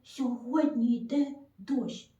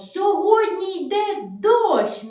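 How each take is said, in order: First: It is said very softly and quietly. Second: It is said in a bright, joyful voice. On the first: "Дуже тихенечко, тихенечко" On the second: "скажемо дуже радісно"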